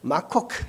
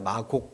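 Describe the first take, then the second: First: The second consonant is a strongly aspirated k. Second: The second consonant is a plain, unaspirated k. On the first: This matches the original foreign sound. "마콕 해야 되는데" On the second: This follows the old transcription rules. "그게 아니라 마곡 이렇게 쓴다고"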